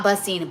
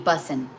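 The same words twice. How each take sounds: First: "bussin'" with a full -ing ending; wrong ending of bussin'. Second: "bussin'" with a dropped g, lower; slangy bussin'. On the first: Correcting her own slang for viewers, "bussin'" with -ing ending. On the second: Correcting her own slang for viewers, "bussin'" ending in -in. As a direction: say "bussin'" low, ending in a plain n. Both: Shown as a demonstration. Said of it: "Not bussin', bussin'".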